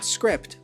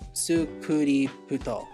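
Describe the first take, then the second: First: The consonants are said together with no added vowels. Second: Vowels are added after each consonant, giving extra syllables. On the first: "instead of it would be like script" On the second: "if you're using a Japanese voice bank, it would be sukuri su sukuri puto"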